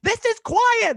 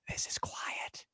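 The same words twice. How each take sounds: First: It is screamed loudly. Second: It is said quietly.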